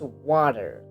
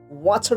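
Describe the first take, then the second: First: The t sounds like a quick d. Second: The t is a crisp t sound.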